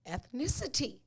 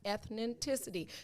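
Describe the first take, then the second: First: The word has its usual number of syllables. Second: The word is padded with several extra syllables. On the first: The speaker calls it right. "we would use the word of the day" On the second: The speaker calls it wrong. "it doesn't make you smarter if you add seven more syllables"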